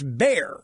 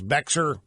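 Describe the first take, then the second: First: The name is said like bear, without x. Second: The name is said with an audible x sound. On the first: The speaker calls it right. "and it's Bear. The X is silent" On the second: The speaker calls it wrong. "I've been pronouncing the name of this county in Texas"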